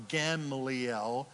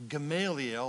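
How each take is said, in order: First: Gamaliel stressed on the first syllable, "GAM-lee-el", slower; alternative pronunciation. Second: Gamaliel stressed on the second syllable, "guh-MAY-lee-el"; first pronunciation. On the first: Preacher offering another reading of a rabbi's name, Gamaliel as GAM-lee-el. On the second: Preacher trying one reading of a rabbi's name, Gamaliel as guh-MAY-lee-el. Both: Shown as a demonstration. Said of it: "however you say it".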